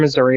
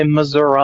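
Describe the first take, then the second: First: Said in the usual way. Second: "Missouri" ending in "uh" instead of "ee"; Southern Missouri pronunciation. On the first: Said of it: "they won't say Missouri". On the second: Shown as a demonstration. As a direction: say "Missouri" as Muh-zur-uh. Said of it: "They'll say Missouri".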